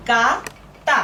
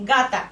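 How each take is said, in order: First: গা and তা said as two separate syllables; ভাগ করে বলা. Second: Said in the usual way. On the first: Shown as a demonstration. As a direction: split it, pausing between গা and তা. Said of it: "ভাগ করে রাখলাম". (গা আর তা আলাদা করে বলা) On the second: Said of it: "একসাথে করলে".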